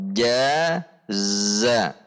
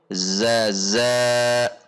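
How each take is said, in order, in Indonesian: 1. Suku kata pertama berbunyi j, suku kata kedua berbunyi z. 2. Kedua suku kata dimulai dengan bunyi z. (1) "Namun jaza" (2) "atau zaza"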